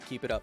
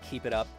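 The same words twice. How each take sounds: First: It is read in a plain American accent. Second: It is read in a put-on Australian accent.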